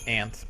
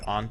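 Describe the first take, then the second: First: The vowel sounds like the one in 'cat'. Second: The vowel sounds like the one in 'father'. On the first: "in the U S sometimes is said aunt" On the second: "another acceptable uh, pronunciation"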